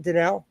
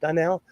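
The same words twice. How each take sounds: First: Donnell with a weak, short first vowel, dih-NELL; trying a pronunciation. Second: Donnell with an open first vowel, dah-NELL; alternative pronunciation. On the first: Host checking a viewer's shop name, trying a pronunciation. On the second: Host retrying a viewer's shop name, alternative pronunciation. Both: Shown as a demonstration. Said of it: "Is that how you say it?".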